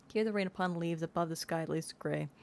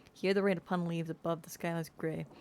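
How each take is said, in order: Both takes have the same delivery.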